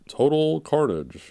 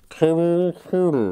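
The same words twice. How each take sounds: First: It is said in an ordinary speaking voice. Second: It is said in a put-on announcer voice. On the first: "How would you say it?" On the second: "Now say it with the real voice"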